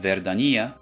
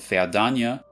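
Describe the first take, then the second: First: It is said in an Italian accent. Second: It is said in a German accent.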